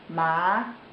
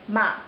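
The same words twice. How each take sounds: First: It is said with the second Mandarin tone. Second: It is said with the fourth Mandarin tone. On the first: "Second tone ma" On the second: "Fourth tone ma"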